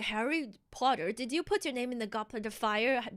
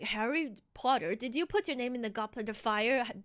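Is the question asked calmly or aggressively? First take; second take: calmly; calmly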